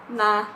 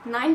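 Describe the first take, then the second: First: It is said in an Austrian German accent. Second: It is said in a Standard German accent. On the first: "and then in Austrian German" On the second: "first in Standard German"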